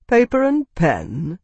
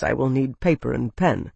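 First: Slow, higher, disbelieving question; incredulous echo. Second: Said in the usual way. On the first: Acted. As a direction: query it in scornful disbelief.

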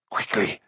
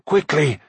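First: Hushed, urgent hiss of a villain; softer first cry of an urgent order. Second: Sharper, voiced repeat of an urgent order; insistent villain's cry, falling at the end. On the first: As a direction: urge it on under the breath. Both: A narrator's reading. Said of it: "cried Akron".

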